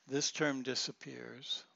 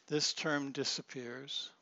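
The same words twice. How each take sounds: The two takes are said the same way.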